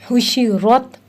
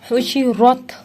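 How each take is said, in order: Both takes have the same delivery.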